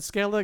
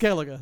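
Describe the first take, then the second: First: The name ends without a final vowel syllable. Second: The name ends with an extra final syllable. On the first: The speaker calls it wrong. "half the character said Skellig" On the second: The speaker calls it right. "it's Skellige, say it"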